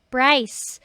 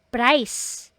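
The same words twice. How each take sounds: The two takes are said the same way.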